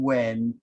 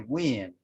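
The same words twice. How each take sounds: First: The vowel is an open 'eh' sound. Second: The vowel is a raised 'ih' sound. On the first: "instead of saying when" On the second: "people say when with an I sound"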